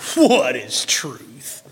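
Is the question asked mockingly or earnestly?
mockingly. It is asked in a mocking, scornful tone.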